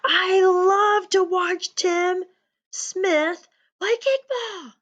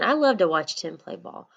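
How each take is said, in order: First: It is yelled in a loud voice. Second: It is said in a calm voice.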